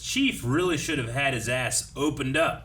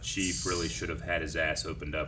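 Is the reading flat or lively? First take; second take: lively; flat. First: It is read with lively, varied inflection. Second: It is read in a flat monotone. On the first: "I don't know why I put the inflection on something like that" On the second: "Why don't you say it monotone?"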